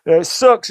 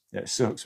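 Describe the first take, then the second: First: High, loud, sing-song sarcasm; mock cheerful. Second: Said in the usual way. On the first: To the viewers, joking about journaling in a mock cheerful squeal. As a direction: chirp it brightly as if it's wonderful.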